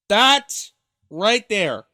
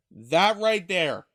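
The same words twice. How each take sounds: First: Loud, slow, pointed emphasis; emphatic. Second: Said in the usual way. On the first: Real, not acted. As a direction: slam down each word to spotlight the quote. Stressing the clip's key line.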